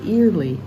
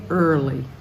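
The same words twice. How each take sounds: First: The first syllable sounds like 'ear'. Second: The first syllable sounds like 'er'. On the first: The speaker calls it wrong. "it starts with E A R like ear, but we don't say early" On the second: The speaker calls it right. "we say early"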